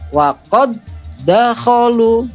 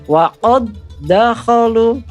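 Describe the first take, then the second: The two takes are said the same way.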